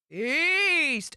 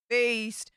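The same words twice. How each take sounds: First: Feast said high and loud, savoured; emphatic. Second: Said in the usual way. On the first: Shown as a demonstration. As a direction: land hard on feast, relishing it.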